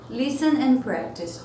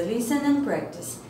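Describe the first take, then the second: First: Slow, careful "Listen and practice"; slow model read. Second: Said in the usual way. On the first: Shown as a demonstration. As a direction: drill it slowly. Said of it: "teacher repeats instruction slowly". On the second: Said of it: "first take, normal".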